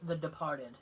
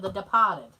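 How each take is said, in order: First: It is said in a neutral, general accent. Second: It is said in a local Boston accent.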